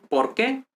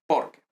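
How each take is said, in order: First: "por qué" rising onto an accented "qué"; stress on qué. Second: "Porque" with weight on "Por", short weak "que"; stress on por. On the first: Teacher contrasting the two words, rising stress on "qué". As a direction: lift the voice on the final "qué". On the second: Teacher contrasting the two words, "Porque" stressed at the front. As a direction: stress "Por" and let "que" drop away. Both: Shown as a demonstration. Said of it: "notice the difference between".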